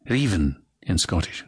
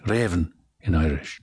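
First: Raven said reevin, close E; Scottish raven. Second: Raven said revven, open E; Irish raven. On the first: The coach contrasts Scottish raven. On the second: The coach contrasts Irish raven. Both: Shown as a demonstration.

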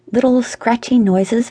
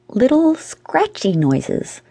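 First: Said in the usual way. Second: High and slow, stretching each word; slow, drawn-out narration. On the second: A narrator's reading. Narrator on what he just heard, slow and drawn out. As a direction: draw the words out, pitched up.

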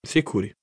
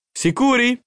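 First: Lower, settled answer; low, assured reply; calm confirmation. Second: Very high, excited question; high, rising eager query; eager checking. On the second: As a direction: ask in hopeful disbelief, pitch leaping up. Boy presses parents for certainty. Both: A narrator's reading.

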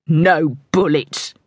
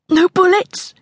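First: Measured falling reply from a gunman; grudging answer. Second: High, rising, fearful question; frightened girl, pitched way up; anxious question. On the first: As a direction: state it slowly as a grudging promise. Pursuer answers her plea. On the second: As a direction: ask it as a plea for safety. Girl bargains with her armed pursuers. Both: A narrator's reading.

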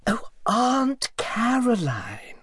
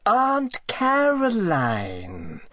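First: High, slow, whispered correction of the name; irritably. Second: High, slow, voiced insistence on the name; irritably. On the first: Acted. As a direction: hiss the correction, high and drawn out. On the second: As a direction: drag the name out, high and pointed. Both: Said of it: "said the lady irritably".

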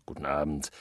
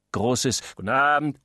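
First: A soft, distant "guten Abend"; faint echo. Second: Said in the usual way. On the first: Acted. Guests greeting in the background, "guten Abend" said softly. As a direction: murmur "guten Abend" like a far-off voice.

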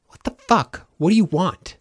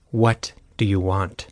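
First: High-pitched exasperated demand; exasperated outburst. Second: Said in the usual way. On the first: A narrator's reading. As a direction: demand an answer, pitch jumping up. Denton snaps at unwanted company.

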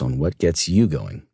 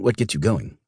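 First: Said in the usual way. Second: "what" punched, incredulous; stress on WHAT. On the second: Acted. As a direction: lean hard on "what" as a challenge. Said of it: "What do you mean".

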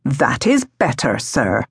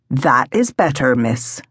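First: Low-pitched man's voice; middle-aged gardener, dropping low on the last word; gardener William. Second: Low-pitched man's voice; gardener William. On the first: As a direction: speak low as a pleasant gardener. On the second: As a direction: pleasant gardener, dropping low on the last word. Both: A narrator's reading.

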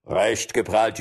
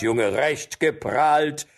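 First: Said in the usual way. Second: Slow, higher sneering "recht geprahlt"; jeering forester repeats the jibe slowly; drawn-out mockery. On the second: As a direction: stretch out "geprahlt" to mock him. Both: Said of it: "einer erwiderte".

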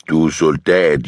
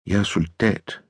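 First: Said in the usual way. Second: Soft, hushed woman's reply; quiet insistence. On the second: A narrator's reading. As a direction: restate it softly. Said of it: "gentager hun".

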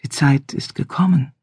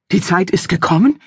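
First: Soft melodic voice. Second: Gasped, higher, incredulous question; father gasps back the stranger's words in anger; breathless with rage. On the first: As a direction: lay the words down softly. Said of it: "in seiner weichen, melodischen Stimme". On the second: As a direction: throw his words back at him. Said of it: "japste ihr Vater schließlich atemlos vor Zorn". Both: Acted.

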